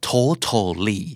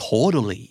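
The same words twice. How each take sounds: First: "totally" with both T's fully sounded; hard T. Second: "totally" as "toh-duh-lee"; American flap T. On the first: Teacher contrasting spelling with American speech, hard T. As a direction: say "totally" as "toh-tuh-lee", second T aspirated. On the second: Teacher showing how Americans say totally, flap T. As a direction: tap the second T of "totally" like a D. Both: Shown as a demonstration. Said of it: "อเมริกันออกเสียงว่า".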